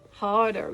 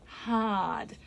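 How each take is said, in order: First: The r at the end is clearly pronounced. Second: The r at the end is not pronounced. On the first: "the American hard r is pronounced" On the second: "in standard English, it would be hard"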